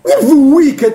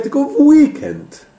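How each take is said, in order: First: High-pitched mock correction, rejected take of "weekend"; Adam Miauczyński. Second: High, slow mock correction, "weekend" drawn out; Adam Miauczyński. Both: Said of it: "zacytować Adama Mieczyńskiego".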